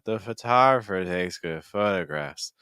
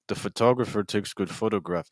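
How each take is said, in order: First: The vowels are open with air flowing through. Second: The consonants are hit hard and vowels closed. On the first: The speaker calls it right. "So then when I add the consonants back in, I'm not closing off" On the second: The speaker calls it wrong. "I made my consonant sounds very strong"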